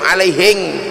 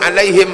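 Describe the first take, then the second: First: It is said in a Buginese accent. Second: It is said in standard Arabic pronunciation.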